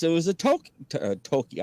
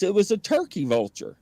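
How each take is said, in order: First: "toki" for turkey, losing the r sound; tongue-tied mispronunciation. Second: Said in the usual way. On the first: Real, not acted. Storyteller can't say turkey, tongue-tied on "toki". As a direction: stumble on "toki", breaking off at t-, then retrying. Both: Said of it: "I can't even say turkey".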